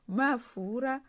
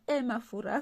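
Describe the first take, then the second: First: The word starts directly on the m sound. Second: A short vowel sound comes before the m. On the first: The speaker calls it right. "Non, mafura" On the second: The speaker calls it wrong. "eh mafura comme les Français"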